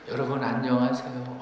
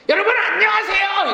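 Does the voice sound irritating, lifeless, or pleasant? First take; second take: lifeless; irritating. First: The voice sounds drained and lifeless. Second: The voice sounds irritating to hear.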